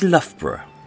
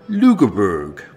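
First: The name is said short, with reduced syllables. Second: The name is said fully, with every letter sounded. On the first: This is how locals say it. The speaker calls it right. "for those of us who actually speak English, is Loughborough" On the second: This is how outsiders say it. The speaker calls it wrong. "deliberately mispronounce just to piss us off"

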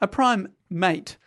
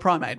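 First: There is a small break between the two parts. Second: The two parts run together without a break. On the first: It is heard as two words. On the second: It is heard as one word.

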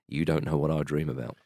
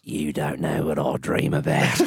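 First: It is said in the speaker's ordinary accent. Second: It is said in an imitated Australian accent.

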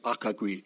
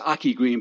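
First: The first name sounds like 'Acha' with a ch. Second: The first name sounds like 'Aki' with a k. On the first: The speaker calls it right. "but it's Acha Green" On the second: The speaker calls it wrong. "Pronounced the way it's spelled"

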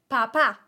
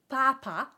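First: The stress is on the last syllable. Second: The stress is on the first syllable.

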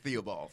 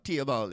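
First: The name begins with a 'th' sound. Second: The name begins with a plain 't' sound. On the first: This is the English pronunciation used in Brooklyn. "But I'm in Brooklyn, so it's Theobald" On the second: This is how it is said in Trinidad. "They don't pronounce the H, so it is. Okay. In Trinidad, it's [name]"

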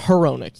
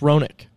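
First: The name begins with an audible H sound. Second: The name begins without any H sound. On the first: The speaker calls it wrong. "Not Heronick. You don't pronounce the H" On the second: The speaker calls it right. "You don't pronounce the H. It's Roenick"

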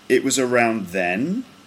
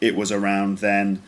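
First: The pitch goes up at the end. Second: The pitch stays flat at the end. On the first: "it's just sort of straight and then it goes up at the end" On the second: "Sounds a bit like a robot"

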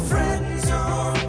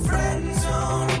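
Both takes have the same delivery.

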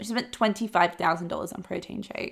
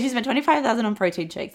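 First: It is said slowly with heavy, dramatic emphasis. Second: It is said quickly in a casual, offhand tone. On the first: Spending this much is treated as shocking. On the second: Spending this much is treated as ordinary.

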